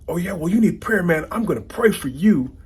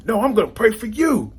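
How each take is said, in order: First: High, louder mock threat to pray for him; mock yelling. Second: Very high, loud comeback snapping the line back; mock yelling back. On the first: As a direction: bark the prayer threat like a put-down. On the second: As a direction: top the other guy, pitched even higher. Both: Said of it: "they're yelling back and forth".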